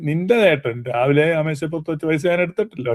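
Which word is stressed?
നിന്റെ ചേട്ടൻ. The emphasis falls on 'your brother'. Money someone else left may have been taken. "ഊന്നൽ നിന്റെ ചേട്ടന് കൊടുക്കുകയാണെങ്കിൽ"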